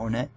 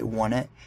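First: The first syllable sounds like the word own. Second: The first syllable sounds like the word one. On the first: "instead of Own It" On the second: "if you say One It"

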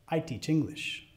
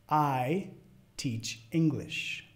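First: It is spoken at natural fast speed. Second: It is spoken fairly slowly. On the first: "al final las voy a decir como las diría a otro hablante nativo" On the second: "La primera vez media lento"

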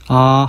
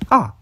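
First: The pitch stays level throughout. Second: The pitch falls sharply toward the end. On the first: "1성은 아 하고 평평한 성조" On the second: "4성은 아 하고 내려가는 성조"

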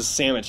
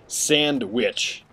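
First: The word is said quickly and clipped. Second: The word is said slowly and carefully. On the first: The speaker calls it wrong. "when I say that too fast, it goes to sandwich" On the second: The speaker calls it right. "this traditional of sandwich, because that's the way it should be"

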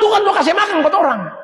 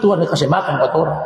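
First: The voice is strong and full. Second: The voice is very weak and faint. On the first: "Tapi suara bukan begini" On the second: "sunya lemah sekali"

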